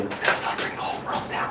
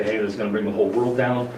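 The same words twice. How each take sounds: First: A whispered grave warning, with This and gonna barely voiced; a hushed whisper, leaning in close. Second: Said in the usual way. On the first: Shown as a demonstration. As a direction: lean in and whisper it like a secret. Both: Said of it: "I tell you".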